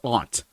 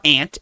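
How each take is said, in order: First: The vowel sounds like the one in 'awnt'. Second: The vowel sounds like the one in 'ant'. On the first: The speaker calls it right. "the way I use like a u ... because there's a u u there" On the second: The speaker calls it wrong. "It's not aunt"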